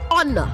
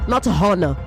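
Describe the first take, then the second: First: The word starts without an H sound. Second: The word starts with an H sound. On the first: The speaker calls it right. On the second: The speaker calls it wrong.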